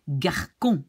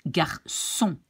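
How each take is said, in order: First: "garçon" said as gar-kon; hard k in the middle of "garçon"; hard C mispronunciation. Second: "garçon" said as gar-son; soft Ç pronunciation. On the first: Teacher shows it without cédille, k in "garçon". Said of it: "if this little thing underneath the C D is not there". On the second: Teacher shows the wanted word, s in "garçon". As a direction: clear s in the middle of "garçon". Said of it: "we want to pronounce". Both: Shown as a demonstration.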